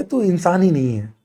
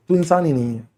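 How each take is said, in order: First: तू hit first, falling; "तू" pushed hard at the start; blunt stress on तू. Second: Softer, "तू" still leaned on; "तू" said low but firm; blunt quiet repeat. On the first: ("तू" पर ज़ोर, सीधा मुंह पर) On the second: (धीमे पर "तू" पर ज़ोर) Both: Real, not acted. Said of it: "clear मुंह पे कह रहा हूं".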